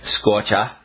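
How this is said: The final R sound is dropped, Boston style. The speaker calls it right. "The R doesn't exist in Boston area, right? Scorcha, right? Maybe that's better"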